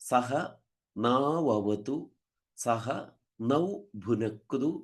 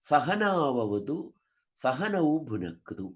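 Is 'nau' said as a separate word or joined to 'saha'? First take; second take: separate; joined. First: The 'na' is said as a word-initial sound. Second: The 'na' is said as a word-internal sound. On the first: Protect the two of us together. The speaker calls it right. "നമ്മള് സാധാരണ നമ്മള് പറയാറുണ്ട്" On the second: It becomes part of a word 'sahana'. The speaker calls it wrong. "ചിലപ്പോ ഇത് ചൊല്ലുമ്പോൾ ... എന്ന് ചൊല്ലാറുണ്ട്"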